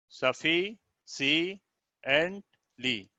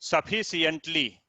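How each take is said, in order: First: sufficiently very slowly, broken into separate beats; syllable by syllable. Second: Said in the usual way. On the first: Shown as a demonstration. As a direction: pause inside sufficiently: suffi, si, ent, lee. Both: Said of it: "इसको आप ध्यान देंगे".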